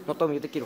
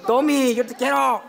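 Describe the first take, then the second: First: Low, softened declaration of affection; hushed, low-pitched plea to a friend; soft plea. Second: Fuller-voiced, open declaration of affection; emphatic plea in the usual pitch; insistent declaration. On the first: Pretend. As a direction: say it low and gently, pleading. Pleading with Tommy, low first take. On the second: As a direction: call it out so Tommy hears. Repeats declaration louder to Tommy.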